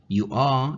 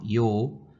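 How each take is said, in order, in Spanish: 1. Las dos palabras se dicen por separado, completas. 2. Las dos palabras se contraen en una sola sílaba.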